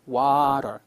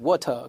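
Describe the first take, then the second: First: It is said in an American accent, flapped t. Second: It is said in a British accent, clear t. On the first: "미국 애들은 water ... 강세가 없는 부분은 water" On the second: "영국 애들은 water"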